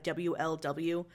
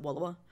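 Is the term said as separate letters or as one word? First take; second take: letters; one word. First: It is spelled out as three separate letters. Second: It is blended into one spoken word. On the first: "I'm saying a WLW" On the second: "jokingly pronounce it Wulawa"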